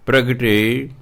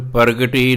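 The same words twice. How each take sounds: First: ਪ੍ਰਗਟੀ with a joined pra, pragti; subscript-ra ਪ੍ਰਗਟੀ as in Gurbani; correct pronunciation. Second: ਪ੍ਰਗਟੀ with a full separate ra, par-ga-ti; ਪ੍ਰਗਟੀ split as pər-gə-ʈi, the wrong way; ਪ੍ਰਗਟੀ with a full rara sound; wrong pronunciation. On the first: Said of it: "ਪੈਰ 'ਚ ਲੱਗਿਆ ਰਾਰਾ". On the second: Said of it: "ਇਹਨੂੰ ਪ੍ਰਗਟੀ ਨਹੀਂ ਪੜ੍ਹਨਾ". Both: Shown as a demonstration.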